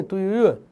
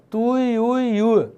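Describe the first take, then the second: First: Said in the usual way. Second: Tuiuiu stretched slowly, vowel by vowel; slow, sustained "tuiuiu" for demonstration; drawn-out pronunciation. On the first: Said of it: "Não tem aquele passarinho?". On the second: Shown as a demonstration. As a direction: draw out each glide in tuiuiu. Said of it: "Então, ó".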